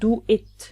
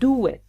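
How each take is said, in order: First: The words are said separately without a glide. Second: The words are linked with a w glide. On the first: The speaker calls it wrong. "not do it" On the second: The speaker calls it right.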